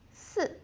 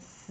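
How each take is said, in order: First: The pitch falls sharply from high to low. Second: The pitch dips low and stays low. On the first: It means the number four. "Fourth tone again" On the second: It means death. "if you change to third tone"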